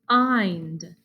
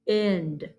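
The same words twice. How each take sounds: First: The vowel is a long I sound. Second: The vowel is a short I sound. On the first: The speaker calls it right. "kind is just the wild colt word with the long I sound" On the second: The speaker calls it wrong. "is kind also a word with the short sound? Let's try it"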